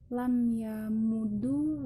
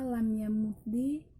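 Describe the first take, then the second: First: The word ends with a u vowel. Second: The word ends with an i vowel.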